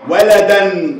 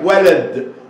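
First: The d carries a vowel and the nunation ending. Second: The word ends on a bare d. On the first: The word carries nunation. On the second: The nunation has been removed.

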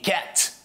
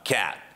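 First: The final T is clearly released. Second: The final T is not released. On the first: The speaker calls it wrong. "Не cat" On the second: The speaker calls it right. "не произносят Ти в конце слов"

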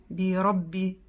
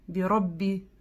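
Both takes have the same delivery.

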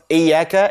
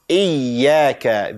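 First: The ya sound is short and single. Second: The ya sound is held and doubled. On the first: The speaker calls it wrong. "It's not Iyaka" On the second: The speaker calls it right. "There is tashdeed on top of Ya"

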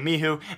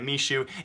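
First: The middle consonant is an h sound. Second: The middle consonant is a sh sound. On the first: The speaker calls it right. "It's actually Mihu" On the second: The speaker calls it wrong. "I was pronouncing it Mishu"

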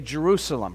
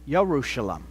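First: The name begins with a J sound. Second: The name begins with a Y sound. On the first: This is how English speakers say it. "we pronounce the Y sound in Hebrew with a J sound" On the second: This is how people in Israel say it. "they say Yerushalem with a Y sound"

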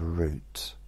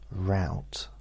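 First: It is said with a British pronunciation. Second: It is said with an American pronunciation. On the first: The speaker calls it right. "instead of" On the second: The speaker calls it wrong. "the mispronunciation"

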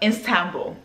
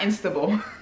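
First: The word starts with 'Ist', with no extra n. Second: The word starts with 'Ins', with an extra n. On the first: The speaker calls it right. "So now I need to just get it together" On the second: The speaker calls it wrong. "like it's spelled I-N-S-T-A-B-U-L"

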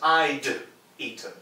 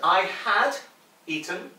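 First: The word had is contracted to a d sound. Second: The word had is said in full.

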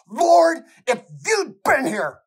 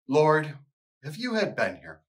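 First: It is cried out with anguish and tears. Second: It is read flatly with no inflection. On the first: It is a grieving accusation. The speaker calls it right. "in anguish and cries out" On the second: It is a calm, pious statement. The speaker calls it wrong. "read it pretty piously, with no inflection"

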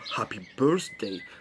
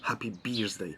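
First: The first part of birthday sounds like burst. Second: The first part of birthday sounds like beer. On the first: It sounds like a day of bursting. "to już trochę brzmi jak szczęśliwego dnia wybuchu" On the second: It sounds like a day of beers. "Happy Birthday trochę brzmi jak szczęśliwego dnia piw"

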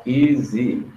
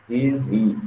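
No difference in how they are said.

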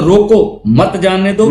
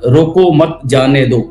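First: It is said with a pause after रोको. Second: It is said without a pause after रोको.

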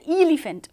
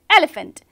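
First: It begins with the letter name of E. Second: It begins with the short phonic e sound. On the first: The speaker calls it wrong. "we don't say elephant" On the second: The speaker calls it right. "We say elephant"

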